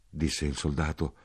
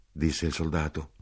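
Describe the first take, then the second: No difference in how they are said.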